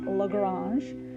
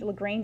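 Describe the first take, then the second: First: The name is said with French pronunciation. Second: The name is said with English pronunciation. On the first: "French would be Lagrange" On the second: "Lagrange is the English pronunciation"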